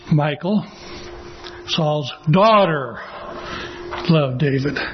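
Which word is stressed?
daughter. The stress is on daughter.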